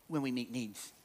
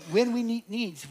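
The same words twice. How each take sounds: First: Said in the usual way. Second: "When" lifted high and hit first; stress on When. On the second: Shown as a demonstration. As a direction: punch the word "When", higher.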